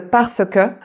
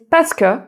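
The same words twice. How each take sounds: First: Every syllable is pronounced in full. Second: The e sounds are dropped, shortening the word. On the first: "au lieu de parce que" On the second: "Tu as aussi parce que au lieu de"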